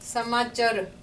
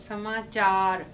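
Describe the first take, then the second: First: The last syllable has a short vowel. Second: The last syllable has a long aa vowel. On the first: The speaker calls it wrong. "ਜਿੱਥੇ ਕੰਨਾ ਨਹੀਂ ਹੈਗਾ ਫਿਰ ਬਣ ਜਾਣਾ ਸਮਾਚਰ" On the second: The speaker calls it right. "ਆਪਾਂ ਆ ਚੱਚੇ ਨੂੰ ਆ ਆਉਂਦੀ ਹੈ"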